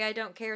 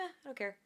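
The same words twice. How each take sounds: First: It is said in an angry tone. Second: It is said in a relaxed, calm tone.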